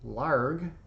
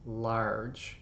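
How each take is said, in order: First: The word ends with a hard G sound. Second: The word ends with a soft J sound. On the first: The word is spelled without the final E. "without it, it would be larg" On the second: The word is spelled with the final E. "now it can say large"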